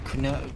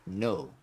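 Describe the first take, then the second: First: The word begins with a sounded K. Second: The word begins with no K sound. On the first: "you would pronounce this word canal" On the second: "the K is silent ... So it's actually no"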